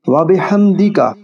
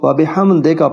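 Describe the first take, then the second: First: The syllable before 'ka' has an 'ee' vowel. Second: The syllable before 'ka' has an 'ay' vowel. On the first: The speaker calls it right. "दी का है" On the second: The speaker calls it wrong. "दे का पढ़ना गलत है"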